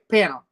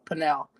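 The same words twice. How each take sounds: First: The word is said quickly, sounds run together. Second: The word is said slowly, each sound spelled out. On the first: This is how we usually say it. "We just like quick panel" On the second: Someone else says it this way. "I think I've heard her say it that way"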